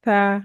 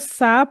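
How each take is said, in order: First: The consonant is soft with no whistling hiss. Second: The consonant has a sharp whistling hiss. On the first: The speaker calls it right. "नरमी से इसको पढ़ेंगे" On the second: The speaker calls it wrong. "अगर इसको सा पढ़ दिया हमने तो ये जो है ये सीन के जैसा हो जाएगा"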